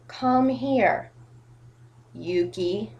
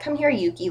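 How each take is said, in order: First: It is slow with a long pause before the name. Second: It is quick with no pause before the name. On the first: The speaker calls it wrong. "weird, awkward pauses in places... Like that" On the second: The speaker calls it right. "like in two seconds"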